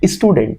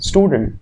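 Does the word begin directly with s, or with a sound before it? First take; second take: sound before; directly s. First: The word does not begin directly with s. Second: The word begins directly with the s sound. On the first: The speaker calls it wrong. "Not" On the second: The speaker calls it right. "आधे स के साथ में शुरू हो रहे हैं ना"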